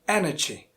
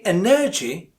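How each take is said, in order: First: The stress is on the first syllable. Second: The stress is on the second syllable. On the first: The speaker calls it right. "So stress falls on the first syllable" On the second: The speaker calls it wrong. "of course it's the second one, but it's not correct"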